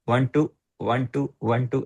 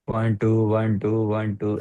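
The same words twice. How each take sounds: First: The gaps between the counts are uneven. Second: The gaps between the counts are even. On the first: The speaker calls it wrong. "ऐसे नहीं होना चाहिए" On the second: The speaker calls it right. "ऐसे होना चाहिए"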